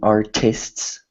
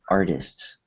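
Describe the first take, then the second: First: The first T is said hard and crisp. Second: The first T is said soft, almost like D. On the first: The speaker calls it wrong. "which would be a hard T" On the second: The speaker calls it right. "it's more a soft T, kind of like"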